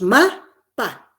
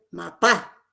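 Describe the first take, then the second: First: "ma, pa" split, first syllable loud, second dropping; acento en la primera sílaba. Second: "mapá" with the final syllable stressed; acento en la última sílaba. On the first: ("ma, pa" separado, con fuerza en la primera) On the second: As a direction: land hard on the PÁ of "mapá". ("mapá" con la última sílaba acentuada) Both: Shown as a demonstration. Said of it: "Si lo cambiáramos el acento".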